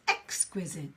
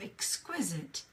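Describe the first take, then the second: First: The stress falls early in the word. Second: The stress falls on the last syllable. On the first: "So the syllable is on the top" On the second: "the stress on the last syllable"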